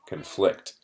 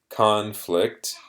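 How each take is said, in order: First: The stress follows the verb pattern. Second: The stress follows the noun pattern. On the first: It says two things cannot both be true. "when it's a verb, the stress is on a different syllable" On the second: It names a serious disagreement. "So as a noun, it is conflict"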